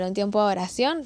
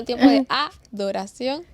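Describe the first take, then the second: First: It is rushed, so it sounds like 'oración'. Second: It is said carefully with every syllable clear. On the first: The speaker calls it wrong. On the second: The speaker calls it right.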